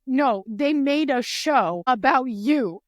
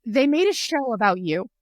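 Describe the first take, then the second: First: "they made a show about you" slowed right down, louder, word by word; insistent repeat, each word of "made a show about you" punched; emphatic insistence. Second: Louder, retold excited announcement; punchy, emphatic quote of a friend's news; breaking the news. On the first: Retold or imitated. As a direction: spell out "about you" slowly and forcefully. Friends insist, repeating the news. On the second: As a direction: relay big news to a friend.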